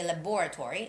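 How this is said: It is said with a British pronunciation.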